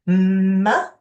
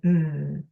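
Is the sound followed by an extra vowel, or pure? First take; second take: extra vowel; pure. First: The consonant has an extra vowel sound added. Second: The consonant is said alone, with nothing added. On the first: The speaker calls it wrong. "instead of saying" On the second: The speaker calls it right. "just saying the sounds as purely as they can without adding another sound onto it"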